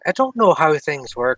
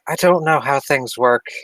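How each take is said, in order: First: It is said in the character's put-on accent. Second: It is said without the character's accent. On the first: The speaker calls it right. "it's the accent" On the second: The speaker calls it wrong. "I completely forgot"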